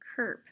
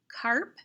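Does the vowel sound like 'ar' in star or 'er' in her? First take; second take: er; ar. First: The vowel sounds like the one in her. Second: The vowel sounds like the one in star. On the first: The speaker calls it wrong. "or it could be k, erp, kerp" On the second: The speaker calls it right. "It could be k, arp, carp"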